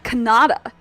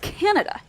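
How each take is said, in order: First: The stress is on the second syllable. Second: The stress is on the first syllable. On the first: The speaker calls it wrong. "It's not" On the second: The speaker calls it right. "have the first syllable stress"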